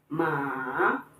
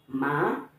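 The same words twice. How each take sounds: First: The pitch dips down then rises. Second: The pitch rises steadily upward. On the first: "the falling and rising tone" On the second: "pronounce it with the second tone"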